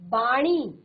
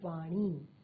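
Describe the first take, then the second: First: The word begins with a b sound. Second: The word begins with a v sound. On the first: The speaker calls it wrong. "बाणी नहीं होता" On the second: The speaker calls it right. "सही शब्द जो है आपका वो है वाणी"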